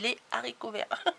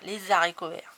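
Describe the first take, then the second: First: No z sound links les to haricots. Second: A z sound links les to haricots. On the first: This is how it was taught in the past. "c'est les haricots verts" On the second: This linking is now allowed. "on a le droit de dire haricots verts"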